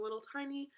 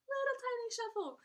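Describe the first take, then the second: First: Said in the usual way. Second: Very high, squeaky little voice; playful high-pitched miniature voice; tiny voice. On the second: Pretend.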